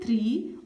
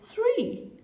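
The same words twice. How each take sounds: First: The th is said in the Indian way. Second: The th is said with tongue between teeth. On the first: The speaker calls it wrong. "Don't say three" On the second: The speaker calls it right. "say three"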